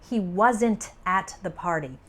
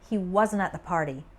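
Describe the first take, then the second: First: The final T of wasn't is clearly pronounced. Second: The final T of wasn't almost disappears. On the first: The speaker calls it wrong. "I don't say" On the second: The speaker calls it right. "It sounds more like; the final T almost disappears"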